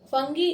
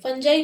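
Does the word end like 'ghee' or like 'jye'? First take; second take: ghee; jye. First: The word ends with a hard g and 'ee'. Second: The word ends with a soft j and 'eye'. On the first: The speaker calls it wrong. "फंगी इसका pronunciation सही नहीं है।" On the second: The speaker calls it right. "The right pronunciation is फंजाई।"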